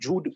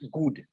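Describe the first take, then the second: First: It begins with a soft j sound. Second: It begins with a hard g sound. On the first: "the word good comes from the word Jud"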